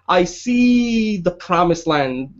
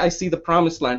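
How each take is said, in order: First: It is said powerfully, with strong emphasis. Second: It is said plainly, without strong emphasis. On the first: The speaker calls it right. "They gotta say ... that emphasis has to be there" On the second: The speaker calls it wrong. "you can't just say"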